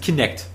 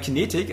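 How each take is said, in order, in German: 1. Das Wort wird mit zwei Silben gesprochen. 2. Das Wort wird mit drei Silben gesprochen. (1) "Also Kinect" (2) "Weil ich sag irgendwie immer Kinetik, aber das ist auch Quatsch"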